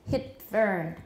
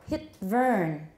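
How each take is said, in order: No difference in how they are said.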